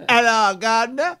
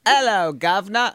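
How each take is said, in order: First: Clumsy, higher-pitched attempt at Cockney; bad London accent. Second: Cockney demo greeting; London accent. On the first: Co-host copies the London line, hopeless accent. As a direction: badly mimic a London accent. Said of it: "Okay, it's hopeless". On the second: Shown as a demonstration. Host demonstrates for his co-host, London accent. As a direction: model a broad London accent. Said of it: "get into my London accent".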